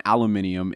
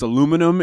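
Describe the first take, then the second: First: Aluminium as al-yoo-MIN-ee-um, five syllables; aluminium the British way, stress on MIN; British pronunciation. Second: Aluminum as a-LOO-mi-num, four syllables; aluminum the North American way, stress on LOO; American pronunciation. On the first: Explaining two words to listeners, aluminium said British style. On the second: Explaining two words to listeners, aluminum said American style. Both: Shown as a demonstration. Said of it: "The two different words for two different places".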